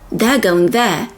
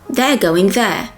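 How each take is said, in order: First: 'They are' is contracted to sound like 'there'. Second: The same.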